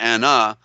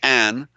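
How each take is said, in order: First: It ends with an added vowel after n. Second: It ends on the n with no vowel. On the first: "but we can also pronounce it anna" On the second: "it's a silent a, so it's, you can say an"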